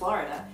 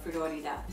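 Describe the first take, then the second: First: The syllables are slurred together lazily. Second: Each syllable is pronounced clearly and separately. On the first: The speaker calls it wrong. "sometimes I'll just say Florida" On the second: The speaker calls it right. "I should say it like that and emphasize, enunciate each syllable"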